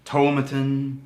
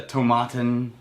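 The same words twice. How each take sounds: First: "tomatin" as TOE-muh-tin; reduced middle vowel in "tomatin"; alternate pronunciation. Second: "tomatin" as toe-MAH-tin; alternate pronunciation. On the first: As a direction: stress the first syllable of "tomatin", swallow the middle. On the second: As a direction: open "ah" in the middle of "tomatin". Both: Shown as a demonstration. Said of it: "both argued about how to pronounce this one".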